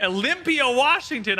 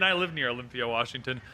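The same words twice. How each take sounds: First: Shout-out read of a viewer's location; hyped shout-out. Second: Said in the usual way. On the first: Acted. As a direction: call it out like a hype announcer.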